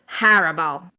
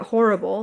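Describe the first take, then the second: First: The first syllable does not sound like 'whore'. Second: The first syllable sounds like the word 'whore'. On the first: The speaker calls it right. "But apparently it's horrible" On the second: The speaker calls it wrong.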